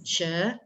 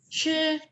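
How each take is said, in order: First: The syllable carries the second tone. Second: The syllable carries the first tone. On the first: "tone kedua" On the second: "Tone pertama"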